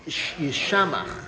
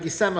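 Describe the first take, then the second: First: The middle consonant is pronounced 'sh'. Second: The middle consonant is pronounced 's'. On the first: It is the written form, meaning desolate. "the standard three pronged letter that we call a shin" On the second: It is the read form, meaning happy. "we read it with a sin like yisamach"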